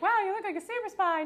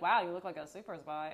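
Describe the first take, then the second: First: The tone sounds admiring and delighted. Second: The tone sounds disapproving and unimpressed. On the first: The look is meant as a compliment. "It's always in a good way" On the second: The look is meant as an insult. "If it was a bad way, you could tell by the tone of my voice"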